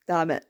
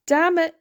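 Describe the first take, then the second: First: Low, resigned muttered reaction; resigned curse. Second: Loud, high mock-frustrated outburst; exasperated curse. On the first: Retold or imitated. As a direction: drop it low in defeat. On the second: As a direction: exclaim it, pitched up in comic exasperation. Same reaction, now exclaimed.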